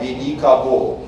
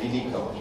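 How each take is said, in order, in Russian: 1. Каждая гласная произносится полностью, как написано. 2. Безударные гласные ослабляются и редуцируются. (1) "побуквенное чтение ... без ... редукции" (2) "не превращая это в"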